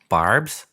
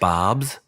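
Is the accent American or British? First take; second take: American; British. First: It is said in an imitated American accent. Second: It is said in the speaker's own British accent. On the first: "it sounds better with an American accent" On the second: "it sounds different with my accent"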